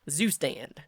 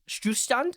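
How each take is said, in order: First: It is said with an American English pronunciation. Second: It is said with a German pronunciation. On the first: "That's how you say it in American" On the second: "That's how you would pronounce it"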